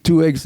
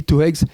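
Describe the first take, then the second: First: "two eggs" with "eggs" starting on the vowel. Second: "two eggs" said as "two heggs"; aspirated H on eggs. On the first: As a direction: say "eggs" cleanly without any H. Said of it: "on dit pas two eggs". (« eggs » prononcé sans h) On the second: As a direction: put a wrong H before "eggs". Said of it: "il n'y a pas d'H à eggs". (h aspiré fautif devant « eggs ») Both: Retold or imitated.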